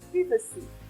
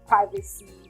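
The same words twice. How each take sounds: First: It is said with a British pronunciation. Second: It is said with an American pronunciation. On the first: "the British pronunciation of that word is privacy" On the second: "The most common pronunciation is the American pronunciation"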